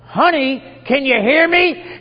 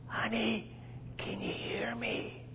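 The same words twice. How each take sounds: First: It is said in a bolder, louder voice. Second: It is said quietly, in soft tones. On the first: "in a voice a little more bold" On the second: "very quietly goes up behind her and says in soft tones"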